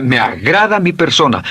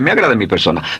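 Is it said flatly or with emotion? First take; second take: with emotion; flatly. First: It is said with strong emotion. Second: It is said flatly, without feeling.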